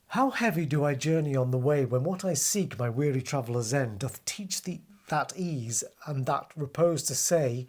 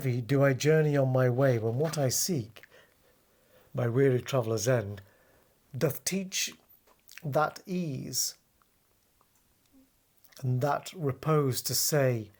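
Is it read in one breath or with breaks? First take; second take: one breath; with breaks. First: It is read in one continuous breath. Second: It is read with breaks between the lines.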